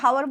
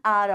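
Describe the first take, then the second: First: The word begins with an h sound. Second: The word begins with a vowel sound. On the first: The speaker calls it wrong. "तो क्या हम लोग हावर बोलते? नहीं बोलते।" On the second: The speaker calls it right. "एच को हम लोग यूज ही नहीं करते"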